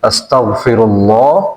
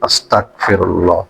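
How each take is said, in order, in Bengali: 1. 'asta'-র পরের ব্যঞ্জনটি একটি g ধ্বনি। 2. 'asta'-র পরের ব্যঞ্জনটি একটি k ধ্বনি। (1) "বাংলা ক না হয়ে বাংলা গ তে উচ্চারণ করবেন" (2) "আর আমরা এখানে বলি কি"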